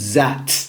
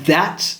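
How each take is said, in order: First: It begins with a z or d sound. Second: It begins with a soft th sound. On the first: The speaker calls it wrong. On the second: The speaker calls it right.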